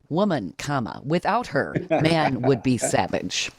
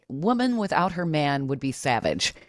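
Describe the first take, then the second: First: It breaks after woman and after her. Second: It is said without breaks.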